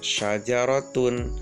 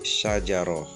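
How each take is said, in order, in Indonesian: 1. Kata itu berakhir dengan akhiran -tun penuh. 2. Kata itu berakhir dengan bunyi h yang lembut.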